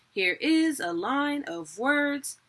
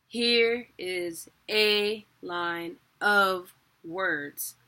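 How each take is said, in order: First: "is", "line" and "words" pushed up high, slowly; weak-strong beats, each strong one higher; wrong stress demo. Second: "Here", "a" and "of" stretched and punched, very slowly; alternating strong-weak beats, strong first, drawn out; stressed syllable demo. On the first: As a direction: swing "Here is a line of words" onto IS, LINE, WORDS. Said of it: "It's not". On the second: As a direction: beat out "Here is a line of words" with weight on HERE, A, OF. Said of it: "You see how those stresses are different". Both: Shown as a demonstration.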